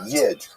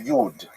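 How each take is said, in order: First: It is said the Lithuanian Yiddish way. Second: It is said the Western German Yiddish way. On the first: "So that's a Lithuanian pronunciation" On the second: "If you uh, lived in Western Germany, you would say"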